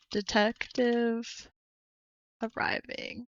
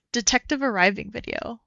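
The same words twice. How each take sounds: First: Slow, drawn-out whisper. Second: Said in the usual way. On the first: Shown as a demonstration. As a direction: breathe the words out slowly. Reads video title twice.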